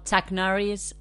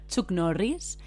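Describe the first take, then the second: First: The name is said with English pronunciation. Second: The name is said with Spanish pronunciation. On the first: "en inglés sea algo como Chuck Norris" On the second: "En español, Chuck Norris. Lo decimos así"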